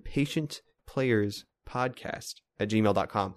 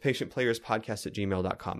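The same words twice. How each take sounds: First: It is said slowly and deliberately. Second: It is said at normal speed.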